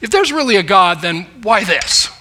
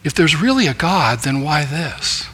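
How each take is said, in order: First: The question sounds defiant and resistant. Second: The question sounds sincere and searching. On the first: He is looking for a way to deny God. "It was a defiant question, a resistant question" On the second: He is asking in order to understand. "Now he was asking for understanding"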